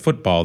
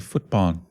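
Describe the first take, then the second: First: The word ends with an L sound. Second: The word ends with an N sound. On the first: "instead of football" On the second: "there's no L at the at the end of Thai words"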